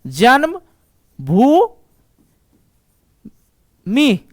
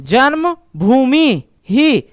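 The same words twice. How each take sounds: First: जन्म... भू... मी, each syllable apart with pauses; slow syllable-by-syllable reading; split into syllables. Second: Janmabhoomi ही run together as one slow word; whole word read through; joined whole word. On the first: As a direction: break जन्म भू मी into separate beats. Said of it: "Sanskrit पढ़ने का तरीका बता रहा हूं". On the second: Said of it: "पढ़ो तो इसको पूरा जन्मभूमि". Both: Shown as a demonstration.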